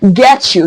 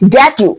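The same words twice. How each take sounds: First: The t and y blend into a ch sound. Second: The t and y are said as separate sounds. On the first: The speaker calls it right. "it's get you" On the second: The speaker calls it wrong. "It's not get you"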